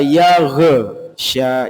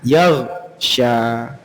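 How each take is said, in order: First: The gh sound bounces with a small echo. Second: The gh sound is held without any bounce. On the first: The speaker calls it wrong. "lebih nyantai bacanya lebih enak kadang" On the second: The speaker calls it right. "perlu kita latih untuk menahan yaghsha, tidak sampai memantul"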